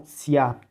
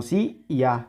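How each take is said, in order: First: "sia" as one single syllable; joined diphthong. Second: "si y a" as two separate syllables; separated vowels. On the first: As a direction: glide straight from I to A in "sia". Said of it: "sino sia". ("sia" junto, en una sola sílaba) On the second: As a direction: break the diphthong apart, "si", then "a". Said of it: "Ya no separamos como". ("si y a" separado en dos sílabas) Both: Shown as a demonstration.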